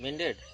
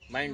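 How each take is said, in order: First: The first vowel is short, as in pin. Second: The first vowel is a diphthong, as in eye. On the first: The speaker calls it wrong. "अरे अंग्रेजी मिंड ना ही हो" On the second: The speaker calls it right. "माइंडेड हो"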